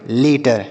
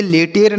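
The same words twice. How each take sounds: First: लेटर with a short schwa in the second syllable, "lay-tuhr"; correct pronunciation. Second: लेटर misread with a long "ay" in the second syllable, "lay-tayr"; wrong pronunciation. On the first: Teacher giving pupils the right reading, लेटर pronounced "lay-tuhr". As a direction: say लेटर low and falling, unstressed "-tər" ending. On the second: Teacher showing pupils the misreading to avoid, लेटर mispronounced as "lay-tayr". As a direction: say लेटर wrongly as "le-TER", full e before the r. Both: Shown as a demonstration. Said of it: "इसे लेटर नहीं पढ़ेंगे".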